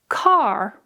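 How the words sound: The final R sound is clearly pronounced. "American English speakers, they will pronounce the R in certain words"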